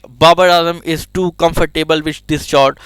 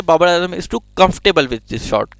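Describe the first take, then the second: First: Comfortable said the wrong way, stress on fort; the mispronounced comfortable; wrong pronunciation. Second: Comfortable said as KUMF-ter-bul, slowly; clipped correct comfortable; correct pronunciation. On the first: Teacher shows the common wrong comfortable, slowly. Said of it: "वो कभी भी ये नहीं कहता है". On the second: Teacher shows how Ramiz Raja says comfortable, slowly. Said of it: "वो कहता है". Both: Shown as a demonstration.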